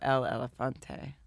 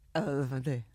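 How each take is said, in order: First: It is said slowly. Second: It is said fast.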